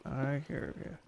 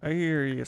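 First: Soft, teasing reply to the skeleton; softly. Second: Called out louder to the skeleton. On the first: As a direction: drop it to a quiet tease. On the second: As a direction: call it toward the cave. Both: Real, not acted. Talking to an unseen skeleton.

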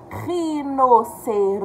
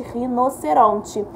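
First: Each syllable drawn out slowly; slow syllable reading. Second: Said in the usual way. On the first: Shown as a demonstration. Teacher sounding out for first graders. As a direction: read it out slowly, syllable by syllable, for the kids. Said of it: "sounding out syllables for children". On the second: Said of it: "Já escrevemos girafa".

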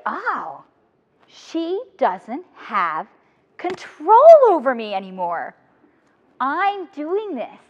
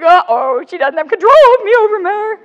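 First: Very slow, calm, wondering; slow dawning realization. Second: High, loud retold panic; alarmed uh-oh. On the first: Retold or imitated. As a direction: let it dawn on you slowly, stretching each word. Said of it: "And then I was like". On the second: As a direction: act out the sudden scare, pitched up and loud. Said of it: "I'm like".

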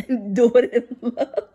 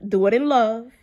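First: Slow, chuckling through "love"; amused self-reminder; laughing repeat. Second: Said in the usual way. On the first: Real, not acted.

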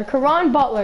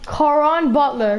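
First: Said in the usual way. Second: "Caron Butler" drawn out slowly, relishing each syllable; savoring the name. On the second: Real, not acted. Pack opener savoring the player he pulled, slow and relishing. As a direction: stretch "Caron Butler" out like a prize. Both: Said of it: "Yeah, I want Caron Butler".

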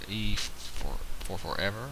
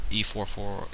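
First: "E four four ever" stretched very slowly, each part drawn out, ending on a rise; drawn-out name. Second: Said in the usual way. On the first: Real, not acted. Sounding out the opponent's username on screen, slow and drawn out. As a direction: spell "E four four ever" out slowly, rising at the end.

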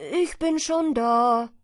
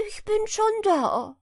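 First: Loud, slow smug call. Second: High, loud triumphant call. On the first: Hedgehog calls to the arriving hare, slow and smug. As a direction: stress ich, drawn out. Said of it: "rief ihm der Herr Igel entgegen". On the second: Hedgehog's wife calls out to the hare, high and taunting. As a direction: stretch schon, taunting. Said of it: "rief ihm die Frau des Igels entgegen". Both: A narrator's reading.

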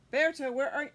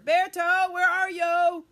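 First: Said in the usual way. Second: Loud calling. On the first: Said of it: "call louder". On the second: Shown as a demonstration. Storyteller calls for the missing puppet, loudly. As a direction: call his name out loud across the room.

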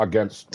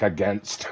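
First: Against slurred into the word before; fumbled against. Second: Against said slowly and softly; drawn-out against. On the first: Real, not acted. Streamer stumbling on against mid-sentence, slurring it. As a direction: trip over against as the words run together. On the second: Shown as a demonstration. Streamer mocking his own struggle to say against. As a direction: carefully sound out against. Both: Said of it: "I can't even hardly say it".

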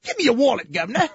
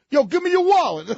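First: Put-on high, loud English tough-kid parody; wussy English accent. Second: High, loud Brooklyn mugger; Brooklyn accent. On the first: Tough English kid demanding a wallet, wussy English accent. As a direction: mug someone in a feeble English accent. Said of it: "They all have that same accent". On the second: Acted. Brooklyn mugger demanding a wallet, loud Brooklyn accent. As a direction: bark it like a Brooklyn street tough. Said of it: "doesn't sound like Brooklyn".

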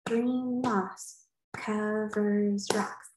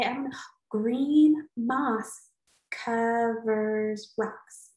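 First: Slow, deliberate, each syllable weighed; teacher slowly tests her haiku line on kids; slow trying out the line. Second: Slow try-out. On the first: Slow careful try-out. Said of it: "That's five syllables". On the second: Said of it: "So maybe I could say". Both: Shown as a demonstration.

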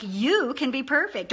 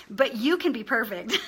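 First: Emphasis landing on "you"; stress on YOU. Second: Said in the usual way. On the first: Shown as a demonstration. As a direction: punch the word "you", then let the rest follow. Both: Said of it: "you want to emphasize words like".

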